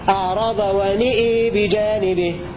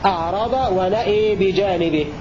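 First: Both the n-vowel and the glottal-stop vowel tilt toward e. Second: Only the vowel after the glottal stop tilts toward e. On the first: "أمال النون والهمزة في الموضعين خلف والكساء هكذا" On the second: "أمال الهمزة والألف بعدها في الموضعين خلاد هكذا"

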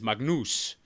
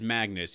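First: The name is said the Albanian way. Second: The name is said the English way.

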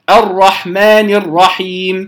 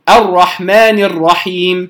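No difference in how they are said.

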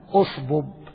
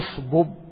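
First: The word begins with a clear glottal stop. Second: The word joins the previous word without a glottal stop. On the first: "إذا ابتدأت تقول" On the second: "لكن إذا وصلتها لا تظهر"

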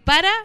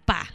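First: The word is said in full, two syllables. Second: The word is shortened to one syllable. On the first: "en vez de decir para" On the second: "así como nosotros decimos"

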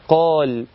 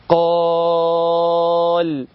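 First: The long vowel has its normal length. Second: The long vowel is stretched out much longer. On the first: "اسمع كده كلمة إيه" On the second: "أقدر أمدها أقول إيه"

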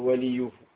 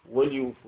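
First: The L carries a short 'i' vowel. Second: The L has no vowel after it. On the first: The speaker calls it wrong. "لا تقول وليوفوا" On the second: The speaker calls it right. "قد تتصل هذا الحرف حرف العطف فيسكت"

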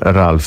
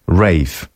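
First: The name is said with an L sound. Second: The name is said without an L sound.

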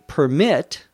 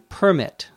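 First: The stress is on the second syllable. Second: The stress is on the first syllable. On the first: It is a verb. "with the accent on the second syllable" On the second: It is a noun. "where the accent is on the first syllable"

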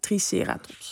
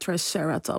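First: It is said the Dutch way. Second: It is said the American way. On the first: It is the Dutchified form. "als je dat dan vernederlands" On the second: It sounds a bit cooler. "Die maken er een cowboynaam van"

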